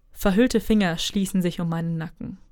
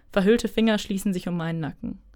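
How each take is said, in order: The two takes are said the same way.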